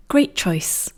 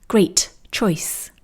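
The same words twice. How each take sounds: First: "Great" with a held t and a short pause, no puff, into "choice."; half t. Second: "Great" with a puff of air before "choice."; released t. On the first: Teacher showing the correct blended version. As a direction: stop the t of "Great" and glide into "choice.". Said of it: "You can hear a little pause here". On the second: Teacher showing the slow, unfluent version. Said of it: "allowing the air to escape after the T". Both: Shown as a demonstration.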